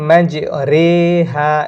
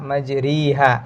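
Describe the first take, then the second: First: The second syllable has an 'eh' vowel. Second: The second syllable has an 'ee' vowel. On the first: The speaker calls it right. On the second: The speaker calls it wrong.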